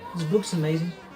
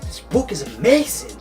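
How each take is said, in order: First: It is said flatly with little energy. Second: It is said loudly with lots of energy. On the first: The speaker calls it wrong. "don't say this book's amazing" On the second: The speaker calls it right. "Say it. ... use energy"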